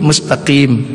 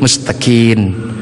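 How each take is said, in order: First: The word ends with an 'm' sound. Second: The word ends with an 'n' sound.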